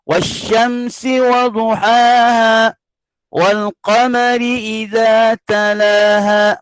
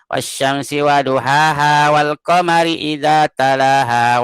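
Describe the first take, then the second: First: It is recited earnestly, with energy and clarity. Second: It is recited lazily, without energy or effort.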